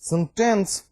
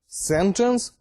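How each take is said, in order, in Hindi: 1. बलाघात दूसरे अक्षर पर है। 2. बलाघात पहले अक्षर पर है। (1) "the stress is on second syllable" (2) "stress is on first syllable"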